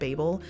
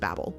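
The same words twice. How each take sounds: First: The name does not sound like 'babble'. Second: The name sounds just like 'babble'. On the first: This is how many other people say it. "I have heard a lot of people pronouncing it Babel" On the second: This version makes the 'babblers' joke work. "I just could have sworn that it would be pronounced Babel"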